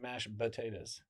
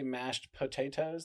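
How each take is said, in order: First: The P in potatoes is soft, like B. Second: The P in potatoes is a hard P. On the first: "You're not putting a hard P on there" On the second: "do people not say mashed potatoes?"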